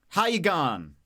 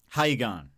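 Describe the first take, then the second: First: It is said slowly. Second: It is said quickly.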